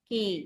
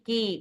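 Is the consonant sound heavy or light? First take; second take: light; light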